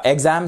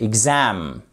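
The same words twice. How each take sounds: First: EXam, stressed wrongly on the EX; stress on first syllable. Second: ExAM, long falling second syllable; stress on second syllable. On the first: Teacher showing learners the mistake, EXam stressed up front. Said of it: "Pas la première". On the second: Teacher correcting learners, exAM stressed on the second syllable. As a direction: lean slowly on the AM of "exam". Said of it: "la seconde syllabe qui est accentuée". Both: Shown as a demonstration.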